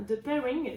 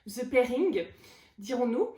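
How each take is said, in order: First: "The Pairing" in a French speaker's careful English; attempted English accent. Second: "The Pairing" louder, heavily French, "The" as "zeu"; hammed-up French accent on the English title; playful French accent. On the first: Real, not acted. Book vlogger names a gift, attempted English accent. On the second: Shown as a demonstration. Vlogger mocks own English, thick French accent. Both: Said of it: "je m'excuse pour mon accent anglais".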